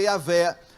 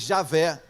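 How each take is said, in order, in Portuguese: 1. O nome começa com som de Y. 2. O nome começa com som de J. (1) "pode ser Yavé" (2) "jamais Javé"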